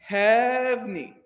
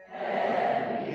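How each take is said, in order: First: "Hevni" squeezed to two syllables, HEV-ni; "Hevni" as two syllables, not three. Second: "Hevni" echoed in two syllables; the choir answers "Hevni" in two beats. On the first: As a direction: say "Hevni" fast in two beats. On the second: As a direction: repeat "Hevni" as HEV-ni. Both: Shown as a demonstration. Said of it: "it's almost like two syllables".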